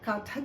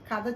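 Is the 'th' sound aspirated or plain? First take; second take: aspirated; plain. First: The second consonant is aspirated, with breath. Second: The second consonant is plain, without breath. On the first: The speaker calls it right. "చెప్పుదాం" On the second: The speaker calls it wrong. "చెప్పొద్దండి"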